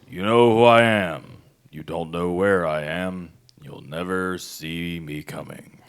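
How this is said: It is said in an imitation of the Mandarin.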